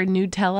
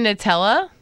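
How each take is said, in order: First: "Nutella" with a long "oo" in the first syllable; "new" pronunciation. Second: "Nutella" with a short, unstressed "nuh" at the start; first-vowel "uh" pronunciation. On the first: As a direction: say "Nutella" as noo-TELL-uh. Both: Shown as a demonstration. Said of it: "I guess you say it".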